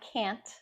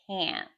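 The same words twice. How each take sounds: First: The vowel sounds like the vowel in can. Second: The vowel sounds unlike the vowel in can. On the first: The speaker calls it wrong. "It's not can't or can't like like you say can" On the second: The speaker calls it right. "It's actually can't"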